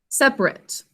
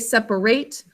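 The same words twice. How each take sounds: First: The last syllable has a weak, reduced vowel. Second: The last syllable has a full vowel like 'rate'. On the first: It is used as an adjective. "As an adjective, we say separate" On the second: It is used as a verb. "as a verb, we say separate"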